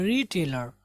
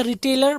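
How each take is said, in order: First: रिटेलर with a long "ree"; stretched first syllable. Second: रिटेलर with a short, quick "ri"; common pronunciation. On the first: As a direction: draw out the start of रिटेलर, "REE-tay-lar". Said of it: "री थोड़ा सा खींचेंगे". (रिटेलर में "री" खींचकर) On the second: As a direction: say रिटेलर as "ri-TAY-lar". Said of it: "हम इसको पढ़ते हैं". (रिटेलर में छोटा "रि") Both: Shown as a demonstration.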